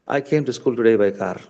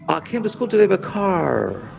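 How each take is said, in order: First: It is said in an Indian accent. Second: It is said in an American accent.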